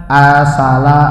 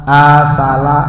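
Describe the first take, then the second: No difference in how they are said.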